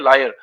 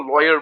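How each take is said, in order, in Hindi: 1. पहला अक्षर 'lie' जैसा सुनाई देता है। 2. पहला अक्षर 'law' जैसा सुनाई देता है। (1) "कई लोग इनको प्रोनाउंस करते हैं लायर, लायर नहीं" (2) "इसको लॉयर बोलते हैं"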